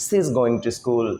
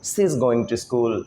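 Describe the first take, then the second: First: 'She is' is joined into one short 'she's'. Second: 'She is' is joined into one short 'she's'.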